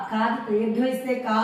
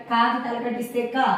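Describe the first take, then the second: First: Recite, ending on a held కా; final కా stretched out, "kaaa"; long vowel drill. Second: Recite, ending on a brief క; క at the end cut short, "ka"; short vowel drill. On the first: Teacher showing the reading method, long final కా. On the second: Teacher showing the reading method, short final క. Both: Shown as a demonstration. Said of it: "ఇదే పద్ధతిలో చదవాలి".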